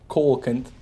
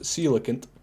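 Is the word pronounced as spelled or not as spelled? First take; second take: as spelled; not as spelled. First: It is pronounced the way it is spelled. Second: It is pronounced differently from its spelling. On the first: The speaker calls it wrong. "I used to think it was pronounced coelacanth, because that's how it's spelled" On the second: The speaker calls it right. "but it's actually pronounced coelacanth"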